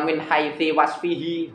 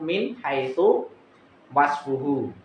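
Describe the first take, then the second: First: The words end with an i vowel. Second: The words end with a u vowel. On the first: The speaker calls it wrong. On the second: The speaker calls it right. "Itu bacanya itu"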